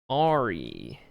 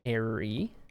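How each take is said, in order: First: The first syllable sounds like 'ar'. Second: The first syllable sounds like 'air'. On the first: "like a pirate" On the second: "like an airplane"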